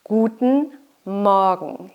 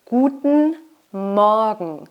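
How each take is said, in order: Both takes have the same delivery.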